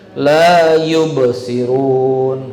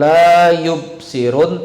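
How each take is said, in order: First: The b is released with a short bounce. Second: The b is closed flat without a bounce. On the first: The speaker calls it right. "Qol qalqalah ba" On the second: The speaker calls it wrong.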